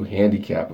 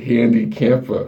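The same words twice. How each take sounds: First: Handicapper said with a P where the M belongs, hæ̃ndikʰæp; wrong name slip. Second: Handicamper said carefully with the M, a bit slower; corrected name. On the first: Greeting viewer Handicamper but saying the name wrong. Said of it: "Freudian slip". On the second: Correcting a viewer's name after a slip, careful. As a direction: fix the slip and say Handicamper properly. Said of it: "that came out the wrong way". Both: Real, not acted.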